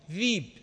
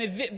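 First: There is a long i sound in the middle. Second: There is a glottal stop in the middle.

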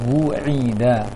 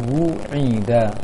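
The two takes are said the same way.

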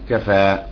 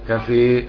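First: The final vowel is an open a sound. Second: The final vowel is fully fronted toward e. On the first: "والباقي كفى" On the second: "كفي حمزة بسو خلف لمالة"

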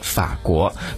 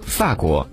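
First: It is said with a mainland Mandarin pronunciation. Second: It is said with a Taiwan Mandarin pronunciation. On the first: "在我们内地呢会把这个法国读作法国" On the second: "可在台湾呢却把这个法国读作法国"

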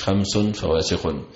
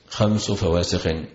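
First: The first word ends in -un, with nunation. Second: The first word ends in -u, without nunation. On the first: The five are described as being vicious. The speaker calls it wrong. "مش" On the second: The five are a specific set named as vicious. The speaker calls it right. "هو بإضافة خمس لا بتنوينه"

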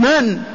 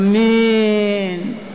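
First: The word is short and firm in a plain tone. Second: The word is drawn out in a soft, tender tone. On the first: It gives the listener no encouragement. The speaker calls it right. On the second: It may invite unwanted attraction from the listener. The speaker calls it wrong.

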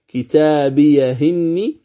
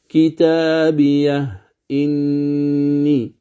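First: The glottal stop is dropped, its vowel moved back. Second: The glottal stop is fully pronounced after the h. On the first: "عفوا الوجه الأول كتابيه إني" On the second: "الوجه الثاني التحقيق"

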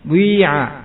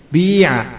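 First: A rounded u-like sound blends into the vowel. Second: The vowel is a pure i with no rounding. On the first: "yang pertama ada suaranya ya" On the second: "enggak ada suara u-nya berarti ya"

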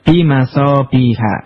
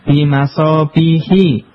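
First: The word ends with an 'a' vowel. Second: The word ends with an 'i' vowel. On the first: The speaker calls it right. "maka dibaca bimasabiha" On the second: The speaker calls it wrong. "bukan bimasabihi"

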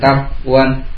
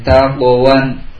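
First: The q sound is closed with no bounce. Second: The q sound bounces lightly before moving on. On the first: The speaker calls it wrong. "Tidak takwan" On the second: The speaker calls it right. "Takwawan kan mantul. ... Mantul sambil lewat"

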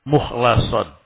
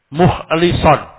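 First: The vowel after the L is 'a'. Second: The vowel after the L is 'i'. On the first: One whom God has chosen and purified. "membaca dengan lam yang di fathah" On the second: One who keeps his devotion to God pure. "lamnya di kasrah"

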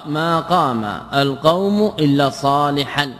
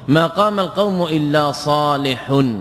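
First: The last word ends with -an. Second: The last word ends with -un. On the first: The word is treated as the excepted item. "النصب على الاستثناء" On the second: The word substitutes for the group it excepts. "بالرفع"

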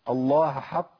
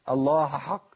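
The two takes are said the same way.

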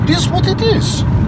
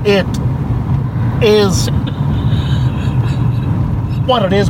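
First: It is said in a put-on smooth character voice. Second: It is said in a put-on starship captain voice. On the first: "That's a Lando Malari" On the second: "do it as Kirk"

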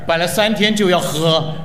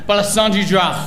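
First: The phrase is said slowly. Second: The phrase is said at normal speed.

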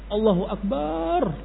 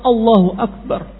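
First: The vowel in Akbar is drawn out long. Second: The vowel in Akbar is kept short. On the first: The word comes to mean a drum. The speaker calls it wrong. "lafaz akbarnya dipanjangkan. ... Akbarnya panjang" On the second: God is the greatest. The speaker calls it right. "Padahal Allahu Akbar pendek"

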